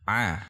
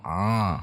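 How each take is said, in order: First: The sound comes from the throat. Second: The sound goes through the nose. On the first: The speaker calls it right. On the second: The speaker calls it wrong.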